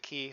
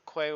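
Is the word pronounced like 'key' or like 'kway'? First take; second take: key; kway. First: The word is pronounced like 'key'. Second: The word is pronounced like 'kway'. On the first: The speaker calls it right. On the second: The speaker calls it wrong.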